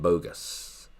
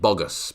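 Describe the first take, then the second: First: The first vowel is an 'oh' sound. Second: The first vowel is not an 'oh' sound. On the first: The speaker calls it right. "it's bo. It's a bo sound" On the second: The speaker calls it wrong. "It's not bogus"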